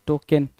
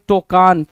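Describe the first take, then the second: First: टोकन with a short "ken" ending; correct pronunciation. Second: टोकान with a long "aan" ending; misspelt reading. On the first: Teacher gives students the right word, टोकन ending in short "ken". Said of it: "टोकन होता है". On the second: Teacher reads the wrong spelling to students, टोकान ending in long "aan". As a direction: say टोकान as toh-KAAN. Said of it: "टोकान नहीं होता है भाई". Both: Shown as a demonstration.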